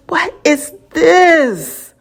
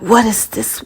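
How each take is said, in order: First: Slow showy podcast intro question; slow dramatic ask. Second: Said in the usual way. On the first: Shown as a demonstration. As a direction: drag "What is this?" out slowly with a rise in pitch. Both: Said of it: "how do I say it".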